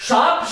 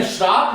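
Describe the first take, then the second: First: Said in the usual way. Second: "श्राप" with r straight after sh; mistaken form. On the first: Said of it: "शाप शब्द होता है". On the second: Shown as a demonstration. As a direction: slip an r into shaap, giving "श्राप". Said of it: "ये नहीं होता है".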